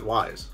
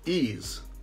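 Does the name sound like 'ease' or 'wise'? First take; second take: wise; ease. First: The name sounds like the word 'wise'. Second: The name sounds like the word 'ease'. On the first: The speaker calls it wrong. "I would have said Wise" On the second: The speaker calls it right. "how to pronounce it"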